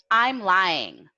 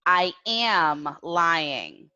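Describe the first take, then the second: First: "I'm lying" with "I'm" as one syllable, falling end; contracted form example. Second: Slow "I am lying" with a long, stressed AM; full form, spelled out. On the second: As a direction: stretch out "am" in "I am lying" for learners. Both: Shown as a demonstration. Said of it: "using the present continuous verb tense".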